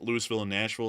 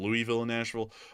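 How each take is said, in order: First: Louisville has a nonlocal pronunciation. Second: Louisville has its local pronunciation. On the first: The speaker calls it wrong. "that's not the way it's pronounced, but it just sounds better saying it that way" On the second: The speaker calls it right. "instead of"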